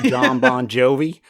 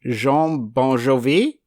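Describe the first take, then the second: First: The name is said with an American pronunciation. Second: The name is said with a French pronunciation. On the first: The speaker uses the plain form for American listeners. "to you Americans" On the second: The speaker pretends the name is foreign and refined. "apologies if I pronounce this wrong ... I think that's French"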